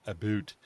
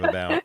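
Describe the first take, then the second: First: "a boot", vowel as in food; Canadian "about". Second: Said in the usual way. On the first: Shown as a demonstration. Mimicking what Americans notice in Canadians, "a boot". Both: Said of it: "instead of about".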